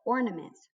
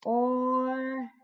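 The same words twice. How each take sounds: First: Said in the usual way. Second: Ornaments said slowly, syllable by syllable; split into syllables. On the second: Shown as a demonstration. Teacher showing the class how to split the word, slow syllables. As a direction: break Ornaments into its three syllables, a bit higher. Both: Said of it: "we split it up into syllables first".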